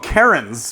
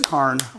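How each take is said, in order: First: It is said as two syllables. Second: It is said as one syllable. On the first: The speaker calls it wrong. "people call them Karens" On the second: The speaker calls it right. "It is Carn"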